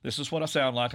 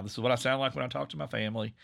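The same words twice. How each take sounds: First: Said in the usual way. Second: Relaxed Southwest Virginia accent. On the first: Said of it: "relax into my accent". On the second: Shown as a demonstration. Showing the hosts his Southwest Virginia family accent. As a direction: ease into his home Southwest Virginia accent, a little faster. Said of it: "I'm relaxing into it now".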